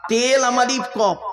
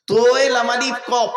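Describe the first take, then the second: First: তেল আমালিফ কফ starting on a light te, higher; contrasting Arabic spelling. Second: তোয়ে with a heavy rounded t, letter by letter; Arabic spelling. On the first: Preacher spelling the mistaken word, light te. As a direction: spell te, lam-alif, qaf with a thin t. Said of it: "তালাক মানে". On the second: Preacher spelling the correct divorce word, heavy to-e. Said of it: "ওর আরবি উচ্চারণ". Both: Shown as a demonstration.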